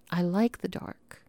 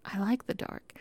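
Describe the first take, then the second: First: Said in the usual way. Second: I like the dark said much softer, almost to herself; soft repeat. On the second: Real, not acted. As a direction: drop the volume on the repeated I like the dark.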